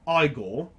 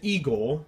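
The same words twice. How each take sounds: First: The name is said with a British pronunciation. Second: The name is said with an American pronunciation. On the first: "most British from British speakers from England or in Hong Kong will pronounce it Igor" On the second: "If you guys want to pronounce it Igor"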